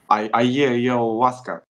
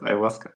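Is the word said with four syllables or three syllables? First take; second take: four; three. First: The word is said with four syllables. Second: The word is said with three syllables. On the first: The speaker calls it right. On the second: The speaker calls it wrong.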